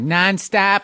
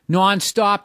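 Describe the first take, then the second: First: It is said with an exaggerated Midwestern vowel. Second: It is said with a real Boston accent. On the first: The speaker calls it wrong. "that's Midwest" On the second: The speaker calls it right. "Non-stop, dude"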